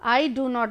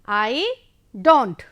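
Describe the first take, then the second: First: The words 'do not' are said in full. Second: The words are contracted into 'don't'. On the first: "I डू नॉट नहीं बोलेंगे" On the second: "जल्दी में जब बोलेंगे"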